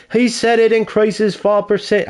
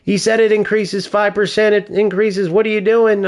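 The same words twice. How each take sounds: First: High-pitched attempt at a British accent; mock British accent, pitched up; bad English accent. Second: High-pitched mock protest in own accent; higher-voiced quote, no British accent; imitation without accent. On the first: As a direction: imitate him in a badly faked English accent. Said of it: "I can't do an English accent". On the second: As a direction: imitate his complaint, accent dropped, pitch kept up. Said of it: "pretend I'm speaking with a British accent".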